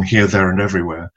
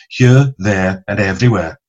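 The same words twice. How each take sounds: First: Said in the usual way. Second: Broad Welsh vowels on each word; Welsh accent. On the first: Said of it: "the title of the Beatles song". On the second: Shown as a demonstration. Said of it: "the vital Welsh vowels".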